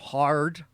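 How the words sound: The R sound is exaggerated and hit very hard. A British speaker imitates an American accent. "you would hear them go they go hard"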